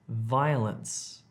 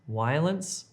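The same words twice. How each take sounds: First: The first sound uses top teeth on lower lip. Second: The first sound is made with both lips. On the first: The speaker calls it right. "if you're trying to say violence" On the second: The speaker calls it wrong. "Don't say violence"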